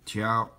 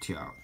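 First: The pitch stays high and level. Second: The pitch dips low, then rises.

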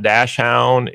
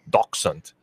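First: The word is said with an anglicized pronunciation. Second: The word is said with a German pronunciation. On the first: The speaker calls it wrong. "It's not Dachshund" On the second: The speaker calls it right. "It's Dachshund"

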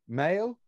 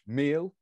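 First: The name sounds like the English word male. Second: The name sounds like the English word meal. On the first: The speaker calls it right. "but I'm saying male" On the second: The speaker calls it wrong. "I could pronounce it as we read it, which would be in English"

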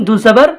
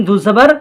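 Both takes have the same delivery.

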